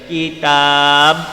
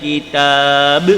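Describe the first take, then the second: First: The final b stops flat without a bounce. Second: The final b is released with a bounce. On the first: The speaker calls it wrong. "Kalau kita baca kitab, salah. Kena ada be dia" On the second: The speaker calls it right. "qalqalah lantun. Jadi kena kitab"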